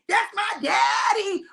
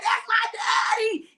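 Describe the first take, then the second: First: High, slow, shouted cheer with a sob in it; a daughter cheering her daddy near tears; proud cheer, breaking. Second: High, slow, shouted cheer for daddy; a proud daughter shouting from the crowd. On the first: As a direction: cry it out from the stands, drawn out. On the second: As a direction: cheer him on from the stands, drawn out. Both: Retold or imitated. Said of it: "I'll be like".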